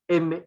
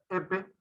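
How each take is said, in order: First: The air flows freely out through the nose. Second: The nose is blocked, so air cannot escape. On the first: "El aire pasa por la vía nasal y los pronunciamos" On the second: "si tú te tapas la cavidad nasal, sale otra, otra, otra consonante. Miren"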